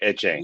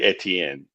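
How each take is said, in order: First: The name is clipped to two short syllables. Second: The name is said fully in the French way. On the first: It is the local shortened form of the name. "Creole version of his name" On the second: It is the original full form of the name. "But it's really Etienne. But I mean, when you it's French"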